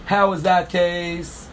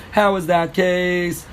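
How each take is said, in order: First: Slow, deliberate translation. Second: Slow, spelled-out question. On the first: Teacher translating the Mishnah word by word, slowly. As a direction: spell out the meaning slowly. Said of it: "Keitzad Ein Mazeh means". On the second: Teacher marking the question for students, slowly. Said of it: "Question mark". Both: Shown as a demonstration.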